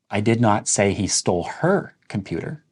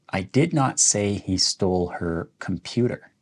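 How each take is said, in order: First: The stress falls on "her". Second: The stress falls on "computer". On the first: He stole someone else's computer. "Let's emphasize the word her" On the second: He stole something else of hers. "let's emphasize the word computer"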